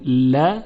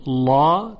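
First: ل said thin and delicate, like a front "la"; light lam. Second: لا said thick and dark, like "law"; heavy lam. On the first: Teacher contrasting it for students, light thin ل. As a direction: lighten ل with a forward, open vowel. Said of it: "ترقیق شده". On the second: Teacher explaining tafkhim to students, heavy dark لا. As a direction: darken لا with a backed, heavy l and vowel. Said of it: "لا تفخیم شده". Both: Shown as a demonstration.

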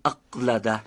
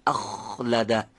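First: اقلده with a hard stop on ق in place of kh; stopped q. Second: اخلده with a long, scraping خ; fricative kh. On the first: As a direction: cut the air off at ق in اقلده, no friction. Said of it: "که انصدادی بشه". (اقلده با قافِ انسدادی و بدون سایش) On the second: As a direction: let the خ rasp continuously in اخلده. (اخلده با خِ سایشی و کشیده) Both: Shown as a demonstration.

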